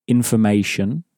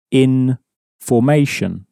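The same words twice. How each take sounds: First: Said in the usual way. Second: "in formation" as two words, IN set apart from "formation"; "in formation" split, with a full FOR in "formation"; different emphasis. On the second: Shown as a demonstration. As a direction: separate "in" from "formation" with a clear gap. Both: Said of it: "There is a different emphasis".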